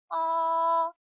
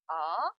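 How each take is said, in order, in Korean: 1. 음높이가 처음부터 끝까지 높고 평평하게 유지됩니다. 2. 음높이가 중간에서 높은 음으로 빠르게 올라갑니다. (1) "일성은 솔에서 솔로 가는 음입니다" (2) "미에서 솔로 단숨에 올라가는 음이에요"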